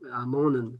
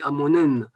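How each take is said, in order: First: The stress falls on the second-to-last syllable. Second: The stress falls on the last syllable. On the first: "en appuyant sur l'avant-dernière syllabe" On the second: "On appuie sur la dernière syllabe"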